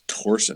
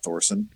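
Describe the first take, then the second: First: The name starts with a plain T sound. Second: The name starts with a TH sound. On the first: The speaker calls it right. "you know it's Torsen, right?" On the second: The speaker calls it wrong. "Not Thorson"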